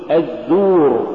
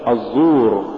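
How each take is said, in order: First: الزور with light Z and pure long u. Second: الزور with Z and u wrongly thickened, pitched lower; heavy Z error. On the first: Tajweed teacher giving the form to say, light long u. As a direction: keep the Z of الزور thin. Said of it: "قل". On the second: Tajweed teacher showing what not to say, heavy Z. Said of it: "ولا تقل". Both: Shown as a demonstration.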